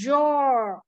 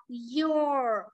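First: "your" begun with a buzzed j/z; wrong buzzed onset. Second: "your" opening on a long "ee" glide; correct Y glide. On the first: Teacher showing the mistake, buzzed "your". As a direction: buzz the start of "your". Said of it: "chứ không phải là". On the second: Teacher showing the right reading, gliding "your". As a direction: glide slowly into "your", no buzz. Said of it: "Từ này đọc là". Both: Shown as a demonstration.

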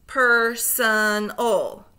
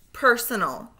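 First: Slow, split into syllables; segmented syllables. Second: Said in the usual way. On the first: Shown as a demonstration. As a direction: chop Personal into slow syllables. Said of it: "say the syllables in segments". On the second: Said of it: "blend them all back together".

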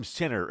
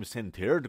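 First: Center said as "senner", t dropped; American dropped T. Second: Centered with a clear t, "sen-ter"; pronounced T. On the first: Teacher showing the American way, dropped T. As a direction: swallow the t in center. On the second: Teacher showing the form Americans avoid, pronounced T. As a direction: sound out the t in centered. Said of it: "ما نمیگیم". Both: Shown as a demonstration.

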